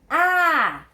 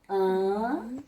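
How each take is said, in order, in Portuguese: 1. A vogal é aberta e oral. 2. A vogal é fechada e nasal. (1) "com acento agudo, eu vou ler a" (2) "se eu escrevo com o tio, o som fica mais fechado"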